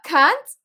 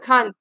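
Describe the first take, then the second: First: The pitch goes up on the word. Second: The pitch goes down on the word.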